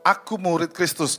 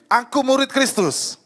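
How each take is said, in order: First: It is said in a plain, ordinary way. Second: It is said more firmly and forcefully.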